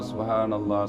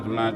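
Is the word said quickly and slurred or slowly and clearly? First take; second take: slowly; quickly. First: It is said slowly with every syllable clear. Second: It is rushed and slurred, syllables swallowed. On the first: The speaker calls it right. "jadi perbaiki" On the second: The speaker calls it wrong. "Jangan terlalu cepat, sehingga apa yang kita sebut itu tidak jelas"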